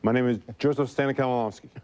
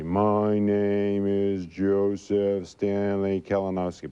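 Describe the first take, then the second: First: The sentence is spoken quickly and fluently. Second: The sentence is spoken slowly and carefully. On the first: The speaker no longer needs to slow down. "But I can say it fast" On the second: This is the careful way the speaker was taught to speak. "I was always taught I couldn't say my name fast. I had to say"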